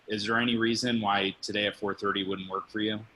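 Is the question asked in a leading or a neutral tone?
neutral. It is asked plainly, with no special tone. The speaker calls it wrong.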